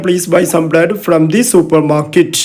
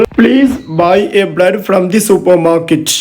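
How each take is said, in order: First: Very slow, clear reading of the right form; slow corrected example. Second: Very slow, clear reading of the mistake; slow wrong example. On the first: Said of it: "some ഉപയോഗിക്കാം". (പതുക്കെ, ശരിയായ വാക്യം) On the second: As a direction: read the wrong sentence slowly for the class. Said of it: "അത് തെറ്റാണ്". (പതുക്കെ, തെറ്റായ വാക്യം) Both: Shown as a demonstration.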